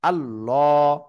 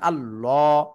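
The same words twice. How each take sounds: Both takes have the same delivery.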